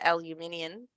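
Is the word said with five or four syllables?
five. The word is said with five syllables. This is how the speaker's country says it. "we call it aluminium"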